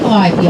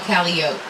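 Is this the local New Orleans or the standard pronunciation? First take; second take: standard; local. First: It uses the standard pronunciation of the word. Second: It uses the local New Orleans pronunciation. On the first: It names the riverboat musical instrument. "that is a musical instrument on a riverboat" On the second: It names the New Orleans street. "The street, however, is called Calliope"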